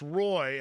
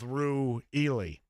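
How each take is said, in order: First: The name is said as one short syllable. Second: The name is said as several drawn-out syllables. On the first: The speaker calls it right. "it's pronounced Roy" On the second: The speaker calls it wrong. "I went with Ru Ely. That was a little off"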